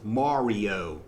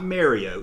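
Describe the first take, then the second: First: The first syllable sounds like 'mar'. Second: The first syllable sounds like 'Mary'. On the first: The speaker calls it right. "It's Mario" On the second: The speaker calls it wrong. "It's not Mario. It's not M A R Y"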